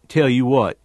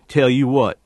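The two takes are said the same way.

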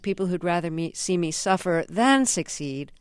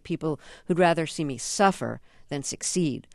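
First: The word 'than' carries the stress. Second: The word 'than' is not stressed. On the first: "the accent is on the than" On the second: "if I was saying that"

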